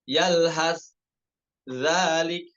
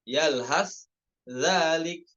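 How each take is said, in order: No difference in how they are said.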